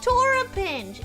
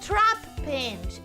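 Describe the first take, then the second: First: An extra vowel splits the T from the R. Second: The T and R run together without a vowel. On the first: The speaker calls it wrong. "It's not Torapinch" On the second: The speaker calls it right. "it's Trapinch"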